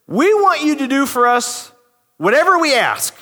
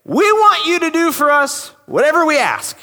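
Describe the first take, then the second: First: Plain reading of the demand; scripture reading. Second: Higher, pushy entitled demand; gutsy demand. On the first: Shown as a demonstration. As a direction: read the verse evenly, a bit raised. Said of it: "So this is what it says". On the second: Retold or imitated. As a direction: say it like you own the place. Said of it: "They have the guts to come up to Jesus and say".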